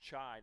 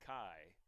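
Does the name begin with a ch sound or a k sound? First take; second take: ch; k. First: The name begins with a ch sound. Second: The name begins with a k sound. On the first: The speaker calls it right. "It's Chai" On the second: The speaker calls it wrong. "not Kai"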